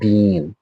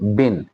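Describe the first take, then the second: First: The word has a long, stressed vowel. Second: The word has a short, weak vowel. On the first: The speaker calls it wrong. "Not बीन" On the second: The speaker calls it right. "जो बिन है ये unstressed form है"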